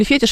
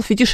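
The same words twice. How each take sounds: First: "фетиш" stressed on the opening фе-; stress on first syllable. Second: "Фетиш" stressed on the final -тиш; stress on second syllable. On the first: Host offering the listener's alternative, "фетиш" with first-syllable stress. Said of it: "что как нужно ударять". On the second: Host reading a listener's either-or question, "Фетиш" with end stress. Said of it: "французское происхождение у слова". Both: Shown as a demonstration.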